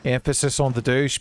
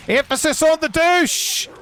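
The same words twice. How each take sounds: First: "douche" lightly emphasized in a casual voice; light stress on douche. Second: "douche" yelled high and drawn out; shouted emphasis on douche. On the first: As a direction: lean a little on "douche", keeping it conversational. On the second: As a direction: shout it slowly, landing hard on "douche". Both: Real, not acted.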